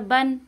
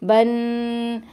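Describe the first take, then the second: First: The n sound is hidden, going into the nose. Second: The n sound is drawn out and stretched. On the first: The speaker calls it right. "नाक में आवाज़ चली गई" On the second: The speaker calls it wrong. "इसको खींच खींच के पढ़ते थे"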